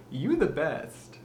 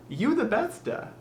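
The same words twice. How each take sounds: First: Said in the usual way. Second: Put-on high accented voice, extra vowel on BESTA; high-pitched mock accent; put-on regional accent. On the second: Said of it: "as someone from ikea might say".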